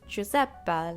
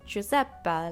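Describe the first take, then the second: First: The name is said with an exaggerated Italian accent. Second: The name is said with an exaggerated Italian accent.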